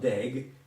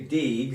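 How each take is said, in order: First: The vowel is an E sound. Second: The vowel is an I sound. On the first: The speaker calls it wrong. "not deg" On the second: The speaker calls it right. "it's really dig"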